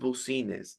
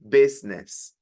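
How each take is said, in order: First: Every letter is sounded, following the spelling. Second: It is said in a shortened, reduced form. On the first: The speaker calls it wrong. "This is not business" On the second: The speaker calls it right. "This is business"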